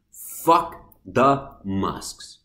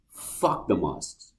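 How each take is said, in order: First: FUCK THE MASKS very slow, each word separate and low; word-by-word emphasis. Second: Low, slow and softer; slow dismissal. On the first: Vlogger repeating the mask verdict, "Fuck the masks" hammered word by word. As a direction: spell out "Fuck the masks" one drawn-out word at a time. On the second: Vlogger rejecting mask rules, slow low dismissal. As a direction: say it slowly, dropping the voice. First take of repeated verdict on masks. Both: Real, not acted.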